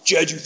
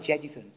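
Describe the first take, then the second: First: The word is said forcefully and strongly. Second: The word is said softly and gently. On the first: It sounds like a strong anthem. The speaker calls it right. "You got to clench a fist just to save a thing" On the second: It sounds like a gentle ballad. The speaker calls it wrong. "doesn't sound like some sort of ballad"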